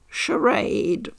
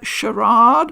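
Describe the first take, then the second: First: It is said in a North American way. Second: It is said in a non-North American way.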